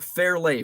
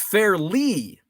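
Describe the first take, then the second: First: The name ends with a 'lay' sound. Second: The name ends with a 'lee' sound. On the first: The speaker calls it wrong. "I've been calling it Fairlay for forty years" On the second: The speaker calls it right. "it's Fairly"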